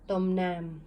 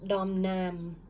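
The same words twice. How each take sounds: First: Said in the usual way. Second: Dom Nam, each syllable said cleanly; model reading of Dom Nam. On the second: Shown as a demonstration. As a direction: read Dom Nam aloud as an example. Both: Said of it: "this one should be read".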